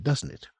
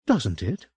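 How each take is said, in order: First: Said in the usual way. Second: Doesn't it rising, unsure and questioning; uneasy question. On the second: A narrator's reading. Franny seeks Will's reassurance, doesn't it rising uncertainly. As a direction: let doubt creep into the question. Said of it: "Will was not laughing with her".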